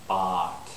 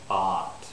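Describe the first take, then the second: First: The vowel is an open unrounded 'ah'. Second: The same.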